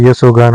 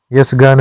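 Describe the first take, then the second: First: यशोगान with ओ after श; correct form. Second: यशगान with no ओ; wrong form. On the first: Teacher giving the correct form, यशोगान. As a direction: say यशोगान as य-शो-गान. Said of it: "होता है". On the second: Teacher voicing the wrong form, यशगान. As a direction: say यशगान as यश-गान. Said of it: "नहीं होता है". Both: Shown as a demonstration.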